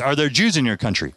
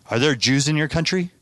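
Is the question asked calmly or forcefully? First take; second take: forcefully; calmly. First: The question is asked in a forceful voice. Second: The question is asked in a calm voice.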